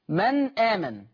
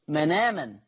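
First: A glottal stop separates the two words. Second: The n runs straight into the vowel.

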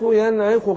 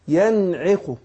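First: The i vowel after the ain is unclear. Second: The i vowel after the ain is clear. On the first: The speaker calls it wrong. "مش باين الايه ما حققتش الكسر اللي في العين" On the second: The speaker calls it right. "أبين الكسر اللي في العين"

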